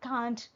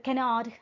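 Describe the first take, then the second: First: It is contracted to one syllable. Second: It is said in full, two syllables. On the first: "cannot will become can't" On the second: "cannot will become can't"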